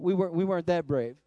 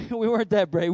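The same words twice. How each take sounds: First: Said in the usual way. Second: Laughing admission. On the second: Real, not acted. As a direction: chuckle through it, a bit louder.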